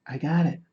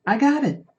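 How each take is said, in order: First: Said in the usual way. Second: High, half-joking Australian accent. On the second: Shown as a demonstration. Streamer caving to chat, one more Australian accent. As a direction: toss off a quick mock Australian accent. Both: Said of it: "I shouldn't do an Australian accent anymore".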